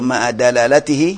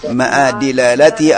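First: The second word begins with the syllable 'da'. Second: The second word begins with the syllable 'di'. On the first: "Boleh baca dalalatihi" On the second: "Kedua-duanya boleh"

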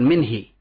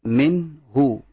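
First: The word ends with an 'i' vowel. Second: The word ends with an 'u' vowel. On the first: The speaker calls it wrong. "bukan minhi" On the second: The speaker calls it right. "Minhu, bukan minhi"

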